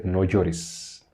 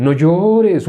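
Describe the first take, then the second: First: Much softer, lower, understated; hushed, simple reassurance; Jesus's gentle command. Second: Higher, drawn-out mock comfort; singsong imitation of empty consolation; mock religious consoling. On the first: Acted. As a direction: say it low and quiet as Jesus consoling. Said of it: "Y Jesús, eh, le dijo a la mujer". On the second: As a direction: parody hollow pious sympathy. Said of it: "Sería como una religión".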